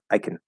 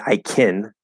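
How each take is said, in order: First: The word can is unstressed and reduced. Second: The word can is stressed with a full vowel. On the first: The speaker calls it right. "you're not trying to stress it" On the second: The speaker calls it wrong. "You're not saying I can, right? That's not right"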